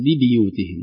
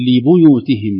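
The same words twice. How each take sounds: First: لبيوتهم with a bi sound as in other readings. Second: لبيوتهم with the ba kept thin; light ba. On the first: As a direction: say لبيوتهم the common way with bi. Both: Shown as a demonstration. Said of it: "وليست".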